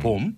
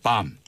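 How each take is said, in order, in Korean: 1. 모음이 둥글어요, 'bohm'처럼요. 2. 모음이 열려 있어요, 'bahm'처럼요.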